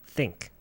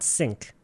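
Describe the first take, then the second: First: The word begins with a th sound. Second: The word begins with an s sound. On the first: The speaker calls it right. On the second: The speaker calls it wrong. "Not sink"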